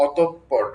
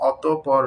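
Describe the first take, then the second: First: অতঃপর with a doubled, held p, "atop-por"; slow অতঃপর, closing firmly on the p; correct pronunciation. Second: অতঃপর said as loose separate "ato-por", no doubled p; wrong pronunciation. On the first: Teacher showing learners how it should sound, correct pronunciation. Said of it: "উচ্চারণ হবে অতঃপর". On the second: Teacher showing learners the mistake to avoid, wrong pronunciation. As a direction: say অতঃপর the wrong way, without the held p. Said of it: "উচ্চারণটা কিন্তু অতঃপর নয়". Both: Shown as a demonstration.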